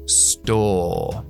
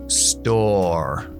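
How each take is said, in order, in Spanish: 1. Acento británico sin sonido de r al final. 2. Acento estadounidense con sonido de r al final.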